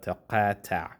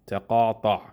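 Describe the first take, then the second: First: The vowel sounds like a plain a. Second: The vowel sounds like an open ah. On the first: The speaker calls it wrong. "instead of" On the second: The speaker calls it right. "you would say ah"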